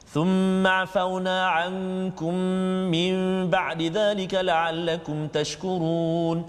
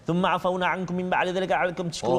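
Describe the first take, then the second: First: It is quick but keeps every sound and length. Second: It is very rushed and swallows some sounds. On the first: The speaker calls it right. "bacaan cepat macam tu" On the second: The speaker calls it wrong. "Kalau laju sangat"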